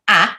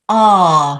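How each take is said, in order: First: The vowel sound is short and different. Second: The vowel sound is long and open. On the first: The speaker calls it wrong. "it's not a" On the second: The speaker calls it right. "is a long vowel sound"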